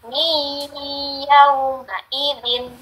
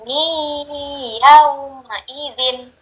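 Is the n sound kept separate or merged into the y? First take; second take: merged; merged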